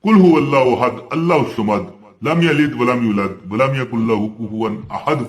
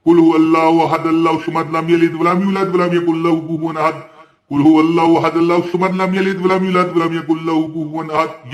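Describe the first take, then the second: First: Quick devotional recitation of Surah Ikhlas; Quran recitation. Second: Showing exactly how to recite, ten times; Quran recitation demo. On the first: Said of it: "जो बंदा चालीस दिन... पढ़ लेता है". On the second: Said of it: "इसी तरह जिस तरह मैंने पढ़ा". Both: Shown as a demonstration.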